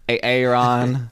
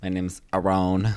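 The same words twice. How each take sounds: First: "A-, Aaron" with a slow stuttered first syllable; stuttered name. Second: Said in the usual way. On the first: Shown as a demonstration. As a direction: say "A-, Aaron" slowly, repeating the A first. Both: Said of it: "now you'll never forget it".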